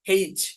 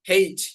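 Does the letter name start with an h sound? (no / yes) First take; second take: yes; yes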